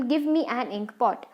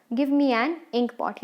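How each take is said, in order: First: Said in the usual way. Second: Slow, word by word, as if for notes; slow dictation. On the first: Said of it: "example, give me an ink pot". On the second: Shown as a demonstration. Teacher dictating the example to students, slow and deliberate. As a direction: dictate it slowly so students can write. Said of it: "example".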